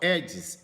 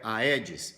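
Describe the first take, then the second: First: It begins with one vowel sound, 'e'. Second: It begins with two vowel sounds, 'a-e'. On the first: The speaker calls it right. "mas você fala Aedes aegypti" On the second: The speaker calls it wrong. "o mosquito não é aedes"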